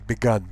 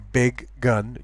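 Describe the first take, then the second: First: The two g sounds merge into one. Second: Both g sounds are pronounced between the words. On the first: The speaker calls it wrong. "You don't say begun because it would sound like begin" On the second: The speaker calls it right. "You say big gun"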